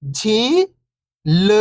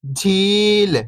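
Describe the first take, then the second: First: First syllable lifting, pause, second falling. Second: Whole word, level then falling at the end; syllables blended. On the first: Teacher breaking a word down for beginning readers, syllable by syllable. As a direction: sound out each syllable alone, long and separated. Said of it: "एक अक्षर का उच्चारण करके". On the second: Teacher showing beginners the joined word, syllables blended. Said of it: "तो मिलके बन जाएगा". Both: Shown as a demonstration.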